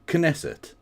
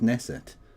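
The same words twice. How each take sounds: First: The initial K is sounded before the N. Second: The initial K is silent, starting with N. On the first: "I used to pronounce it Knesset" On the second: "no, the K is silent, it's just Knesset"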